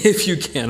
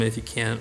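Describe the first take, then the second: First: Incredulous. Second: Quiet echo. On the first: Preacher voicing Jesus, amused at the father's doubt. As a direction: hit IF, as if the doubt is absurd. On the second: Preacher quietly echoing the father's if you can. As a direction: softly repeat the father's doubtful words. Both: Retold or imitated. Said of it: "what do you mean".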